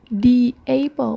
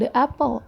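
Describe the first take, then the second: First: 'The' is said like 'thee'. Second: 'The' is said like 'thuh'. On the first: The speaker calls it right. "membacanya jadi "di"" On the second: The speaker calls it wrong.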